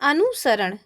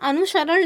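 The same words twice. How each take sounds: First: The hissing sound is a plain 's' sound. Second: The hissing sound is a 'sh' sound. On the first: The speaker calls it right. "सीटी वाला सा है वो ना लग करके क्या लिखा जाता है? दंत सा" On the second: The speaker calls it wrong. "अनुसरण नहीं होता"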